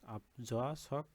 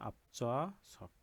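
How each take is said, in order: First: The consonant after p is plain and lax. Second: The consonant after p is tense and hard. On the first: The speaker calls it wrong. "না হয়ে" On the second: The speaker calls it right. "হবে হচ্ছে"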